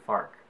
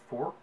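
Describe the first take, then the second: First: The vowel sounds like 'ar'. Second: The vowel sounds like 'or'.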